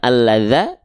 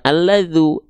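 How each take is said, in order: First: The word ends with an a vowel. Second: The word ends with a u vowel. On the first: "bukan alladza" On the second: "bukan alladzu"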